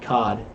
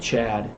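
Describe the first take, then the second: First: The name sounds like cod, with an o vowel. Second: The name sounds like chad, with a ch. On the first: This is how locals over there would say it. "they don't say it the same. It would be Cod" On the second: This is the name's real pronunciation. "actual Chad. The ch"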